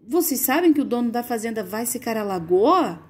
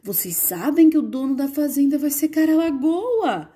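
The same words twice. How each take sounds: First: "Vocês sabem que o dono da fazenda vai secar a lagoa?" read as a plain question, ending in a falling tune. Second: Astonished. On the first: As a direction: simply ask it. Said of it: "Tá perguntando". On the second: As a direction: read it as a startled exclamation. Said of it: "espanto nesse caso". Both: Shown as a demonstration.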